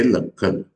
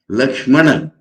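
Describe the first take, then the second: First: "Lakhana" with "kshm" reduced to "kh"; Bengali pronunciation. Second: "Lakshmana" with full sh and m after the k; Sanskrit pronunciation. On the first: Monk showing how Bengalis say Lakshmana, Bengali pronunciation "Lakhana". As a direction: say "Lakhana", dropping the sh and m. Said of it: "they will say". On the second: Monk showing class the written name, careful Sanskrit pronunciation of "Lakshmana". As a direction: say "Lakshmana" with every consonant of "kshm" sounded. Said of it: "But pronouncing". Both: Shown as a demonstration.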